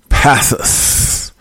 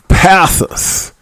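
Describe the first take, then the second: First: Breathy whispered "Passus"; secretive whisper of "Passus"; whispered name. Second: Said in the usual way. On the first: Shown as a demonstration. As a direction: hush it out, voiceless "Passus". Whispered name, then said normally.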